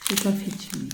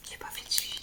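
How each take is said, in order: First: Said in the usual way. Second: Breathy whispered admission, almost to herself. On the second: Real, not acted. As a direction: whisper it as a quiet confession. Repeats admission, then whispers it.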